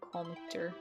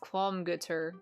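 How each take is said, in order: First: No G sound is heard in the middle. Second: A G sound is heard in the middle. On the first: "I'm a fan of the silent G pronunciation" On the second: "said it was pronounced Qualmgutter"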